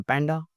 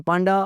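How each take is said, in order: First: पैंडा the American way, with "ae"; American "pan-da" for पैंडा; American pronunciation. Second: पांडा the British way, with "aa"; British "paan-da" for पांडा; British pronunciation. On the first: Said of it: "American English में पैंडा". (American ढंग से पैंडा, "ऐ" के साथ) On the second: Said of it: "British English में पांडा". (British ढंग से पांडा, लंबा "आ") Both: Shown as a demonstration.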